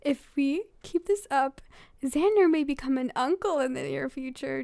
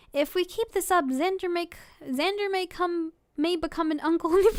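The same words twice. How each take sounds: First: Said in the usual way. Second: Higher-pitched, about to crack up; trying not to laugh. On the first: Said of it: "Okay, okay, okay". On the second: Real, not acted. Reader continuing the fan fiction, trying not to laugh. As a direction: read it while losing the fight against laughter. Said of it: "without me trying to laugh".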